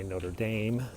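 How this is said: It is said with an American accent. The speaker calls it wrong. "we have that American A pronunciation. That's why we say Notre Dame"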